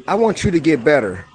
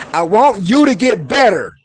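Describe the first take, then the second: First: Said in the usual way. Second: Louder and higher, pushing the line; fired-up plea to get better; with emotion. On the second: Shown as a demonstration. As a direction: plead it with rising heat. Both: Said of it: "so you add emotion sometime with the word".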